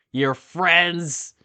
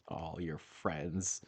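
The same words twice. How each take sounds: First: Mock outrage. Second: Mock hurt. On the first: Outraged repeat. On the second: Mock hurt at being called friend. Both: Real, not acted.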